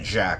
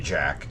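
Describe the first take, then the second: First: The word is said in a Louisiana-style pronunciation. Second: The word is said in a plain, non-Louisiana pronunciation. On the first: The name is read as a local Louisiana name. The speaker calls it wrong. "this company is not a Louisiana company, so it probably isn't Jack" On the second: The name is read as a non-Louisiana name. The speaker calls it right. "It's probably Jack"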